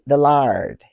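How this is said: The vowel is an open 'ar' sound. "they say the lard"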